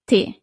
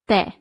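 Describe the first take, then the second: First: The vowel lacks the clear 'e' sound. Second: The vowel has a clear 'e' sound. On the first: The speaker calls it wrong. "Without the accent, it would be il tè" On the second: The speaker calls it right. "But with the accent, it becomes il tè"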